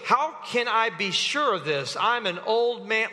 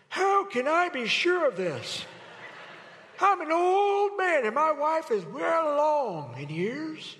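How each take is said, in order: First: Said in the usual way. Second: Put-on higher, slow, quavering old man. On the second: Shown as a demonstration. Preacher redoing the line as a frail old man. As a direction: play Zechariah as a doubting old man. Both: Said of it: "Let me do it again".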